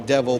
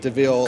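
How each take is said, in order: First: It sounds like the ordinary word devil. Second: It ends in a long 'veel' sound. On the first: This is how the speaker's own people would say it. "We might say devil" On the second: This is how the locals say it. "but they pronounce it DeVille"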